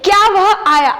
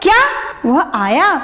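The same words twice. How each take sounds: First: It is said in a plain, neutral way. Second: It is said with wide-eyed surprise. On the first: It is an ordinary question. "अभी तक general बोल रहे थे" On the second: The speaker is amazed that he came. "विस्मयादिबोधक चिन्ह लगा देती हूँ ... क्या हमारी आंखें बड़ी हो गई"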